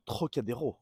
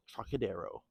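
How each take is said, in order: First: Trocadero said the French way, with a throaty r; French pronunciation. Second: Trocadero said the English way, with an English r; English pronunciation. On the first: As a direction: say Trocadero like a Parisian, uvular r. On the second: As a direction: say Trocadero like an English speaker, ending in "oh". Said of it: "called Trocadero". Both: Shown as a demonstration.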